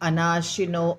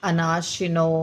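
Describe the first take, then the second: The two takes are said the same way.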